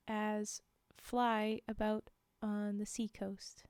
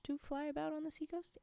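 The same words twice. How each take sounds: First: Said in the usual way. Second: "to fly about on the seacoast?" rising up in doubt; puzzled question. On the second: Shown as a demonstration.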